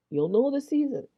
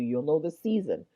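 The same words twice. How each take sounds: First: Higher, louder, insistent repeat; emphatic. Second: Said in the usual way. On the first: Real, not acted. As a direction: drive the point home on the repeat.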